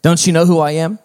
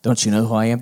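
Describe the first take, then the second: First: Louder, higher indignant question; cross. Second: Said in the usual way. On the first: A narrator's reading. Donkey demanding the crowd know him, crossly. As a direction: demand to be recognized. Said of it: "he said crossly".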